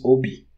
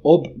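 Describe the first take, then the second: First: It ends with an added i vowel. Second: It ends on the consonant b. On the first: "So ob becomes obi" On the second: "So ob becomes obi"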